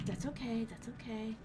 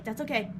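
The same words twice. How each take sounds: First: Much softer, trailing away; fading self-reassurance. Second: Said in the usual way. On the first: Real, not acted. Streamer softly soothing herself after dying. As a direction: let it fade as you reassure yourself.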